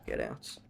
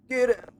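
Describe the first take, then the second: First: Much lower and softer, a cold machine's dismissal; low robot command. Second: Mock shout. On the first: Pretend. Streamer as robot telling organics to leave, low. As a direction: say it like a robot waving you off. Mock robot ordering someone away. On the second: Streamer as robot shouting at chat, high yell. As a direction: snap it out as a shrill eviction.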